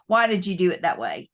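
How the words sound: It sounds sincere and genuinely curious.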